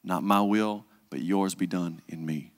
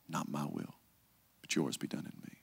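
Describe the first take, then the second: First: Said in the usual way. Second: Softer, lower, nearly whispered; hushed prayer. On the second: Shown as a demonstration. Jesus praying in Gethsemane, softer fading whisper. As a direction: let the prayer fade to a breath. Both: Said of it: "three times".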